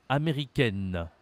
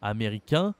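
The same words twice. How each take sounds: First: AMÉRICAINE ending "-kenn", n sounded; falling "américaine" with a held final n; feminine pronunciation. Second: AMÉRICAIN with nasal "ain", silent n; rising "américain", no n heard; masculine pronunciation. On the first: Teacher demonstrating endings to a learner, feminine pronunciation. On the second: Teacher demonstrating endings to a learner, masculine pronunciation. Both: Shown as a demonstration. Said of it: "Prononciation avec A I N".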